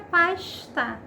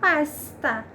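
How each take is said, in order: First: The s before t sounds like a hushing sh. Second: The s before t sounds like a hissing s. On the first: This is how people from Rio de Janeiro say it. "Mas a pronúncia carioca é pasta" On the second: This is how other regions of the country say it. "outras regiões do país que vai ter a pronúncia de pasta"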